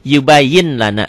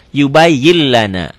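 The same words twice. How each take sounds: First: "Yubayyin lana" with the N sounded; written form. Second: Slow "Yubayyin lana" said yubayyil-lana; N disappears. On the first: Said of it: "dibacanya jadi N-nya hilang". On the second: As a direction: hold a doubled L in "Yubayyin lana", no N. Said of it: "N-nya hilang". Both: Shown as a demonstration.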